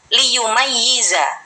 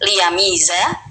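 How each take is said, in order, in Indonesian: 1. Konsonan di tengah itu ganda dan ditekan. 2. Konsonan di tengah itu tunggal dan ringan. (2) "dibaca takhfif"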